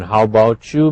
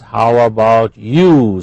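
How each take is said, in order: First: The words are reduced and run together. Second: The words are said fully and separately.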